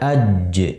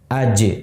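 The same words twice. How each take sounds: First: The final j is held before release. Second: The final j is released immediately. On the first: The speaker calls it wrong. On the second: The speaker calls it right.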